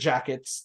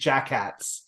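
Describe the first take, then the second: First: The second syllable sounds like 'kets'. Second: The second syllable is accented and sounds like 'kats'. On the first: It sounds like the word for coats. "I used to pronounce it jackets" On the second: It is set apart from the word for coats. "I've started accentuating it to be jackats instead"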